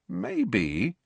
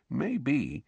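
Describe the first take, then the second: First: A slow, soft, hesitant Maybe; slow, thoughtful. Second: A softer, hushed Maybe; lower voice. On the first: Ron slowly weighs an idea, quiet and slow. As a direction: let the Maybe hang, softer and slow. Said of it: "said Ron slowly". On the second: Ron leans in to hint at Snape, hushed. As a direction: drop the voice, conspiratorial. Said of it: "in a lower voice". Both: A narrator's reading.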